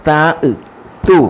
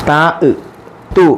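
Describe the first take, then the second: Both takes have the same delivery.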